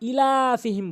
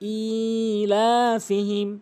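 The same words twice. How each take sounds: First: The vowel after the glottal stop is short. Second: The vowel after the glottal stop is drawn out. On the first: The speaker calls it wrong. "Hamza এখানে অধিকাংশ লোক টেনে পড়ে না" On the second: The speaker calls it right. "টেনে পড়তে হবে"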